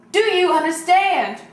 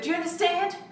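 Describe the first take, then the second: First: Louder and slower, stern; stern loud demand. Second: Said in the usual way. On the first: Acted. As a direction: bark it slowly, firm and loud. Mother repeats demand, louder.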